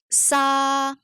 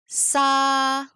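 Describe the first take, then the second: The two takes are said the same way.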